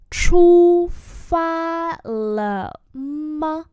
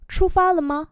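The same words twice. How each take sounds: First: Slow, high, projected syllables; slow-motion pronunciation model; slow demonstration. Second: Said in the usual way. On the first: Shown as a demonstration. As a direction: hold each syllable, starting loud. Teacher repeats slowly for learners.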